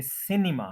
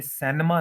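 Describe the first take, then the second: First: सिनेमा in three syllables, "SIN-i-ma"; correct pronunciation. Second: सिनेमा as two-beat "SEN-ma"; common mispronunciation. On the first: Teacher correcting the common error, careful pronunciation. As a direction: say सिनेमा with a short "i" first. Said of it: "ये सिनेमा है". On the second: Teacher showing the form to avoid, mispronounced. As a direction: put an "e" in the first syllable of सिनेमा. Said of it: "ये सिनेमा नहीं है". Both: Shown as a demonstration.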